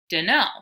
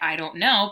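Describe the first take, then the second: First: The words are run together into one clipped word. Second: The words are said separately and in full. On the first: The character speaks in an informal dialect. "he uses dunno" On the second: This is the standard way of saying it. "in a typical English way"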